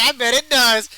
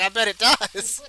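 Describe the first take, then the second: First: Louder second take, laughing; louder laughing repeat of innuendo. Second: Slow suggestive innuendo. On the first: Repeating the innuendo to her, louder through laughter. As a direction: punch it harder through a laugh. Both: Retold or imitated. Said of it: "I was like".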